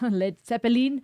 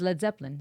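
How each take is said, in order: First: The name is pronounced with a German sound. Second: The name is pronounced with an English sound. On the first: The speaker calls it wrong. "The German in me is coming out" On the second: The speaker calls it right. "I've been told it's Led Zeppelin"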